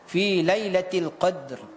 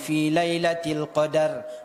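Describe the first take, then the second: First: The d is silent, with no vowel after it. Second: The d is followed by an added vowel. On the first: The speaker calls it right. "dal matinya sukun mahdhah, mati murni" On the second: The speaker calls it wrong. "Jangan dibaca ... da da-nya berharokat ... itu sudah salah besar"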